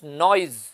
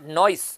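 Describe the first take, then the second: First: The word ends with a buzzing z sound. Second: The word ends with a hissing s sound. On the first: The speaker calls it right. "ज वाला sound, fricative sound" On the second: The speaker calls it wrong. "स नहीं है, नॉइस नहीं है"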